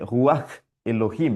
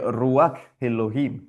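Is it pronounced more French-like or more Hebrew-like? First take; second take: Hebrew-like; French-like. First: It is pronounced with a more Hebrew-like sound. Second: It is pronounced with a plainer, French-like sound.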